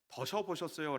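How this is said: It is said in a Busan dialect accent.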